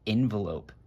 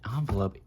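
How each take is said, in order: First: The first vowel is an 'eh' sound. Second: The first vowel is not an 'eh' sound. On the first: The speaker calls it right. "I say envelope. There's an E" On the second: The speaker calls it wrong. "why did I say it like that?"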